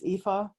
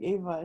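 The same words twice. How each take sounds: First: The name is said with a German pronunciation. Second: The name is said with a non-German pronunciation. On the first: "when I say it in German it's Eva" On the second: "I think Eva is sort of it's softer"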